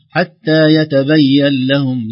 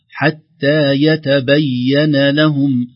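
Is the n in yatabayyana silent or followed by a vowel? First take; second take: silent; vowel. First: The n sound is silent, with no vowel. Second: The n sound is followed by an a vowel. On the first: The speaker calls it wrong. "يميل إلى التسكين" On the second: The speaker calls it right. "الحرص على فتح النون"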